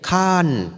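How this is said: It is said with a final n sound.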